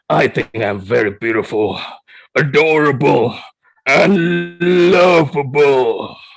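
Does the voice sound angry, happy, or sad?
angry. It is said in an angry voice.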